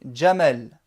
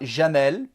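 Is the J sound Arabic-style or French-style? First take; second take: Arabic-style; French-style. First: The J is said as in Arabic. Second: The J is said as in French. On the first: The speaker calls it right. "mais on dit" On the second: The speaker calls it wrong. "On ne dit pas"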